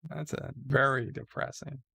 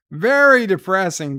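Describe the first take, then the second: First: Said in the usual way. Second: "very" punched high and loud, falling through "depressing"; emphatic repeat. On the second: Real, not acted. Host reacts to the letters, "very" stressed loud and high in "very depressing". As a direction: hit "very" hard and high, then drop on "depressing".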